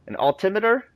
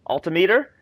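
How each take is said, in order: First: "altimeter" questioned with the stress on TIM; stress on second syllable. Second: "Altimeter" questioned as alti-MEE-ter; stress on other syllable. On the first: Player testing how the word changes, "altimeter" stressed on TIM. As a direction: say "altimeter" as al-TIM-eter, rising. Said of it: "put the emphasis on the other syllable". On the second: Player testing the other emphasis, "Altimeter" said as alti-MEE-ter. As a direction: say "Altimeter" with a long MEE, rising. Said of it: "it changes the word". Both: Shown as a demonstration.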